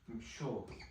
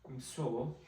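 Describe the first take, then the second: First: The consonant after m is an sh sound. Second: The consonant after m is a plain s. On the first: This is how the word was said long ago. "an older pronunciation, it would have been msho" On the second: This is how the word is said today. "the current pronunciation is mso"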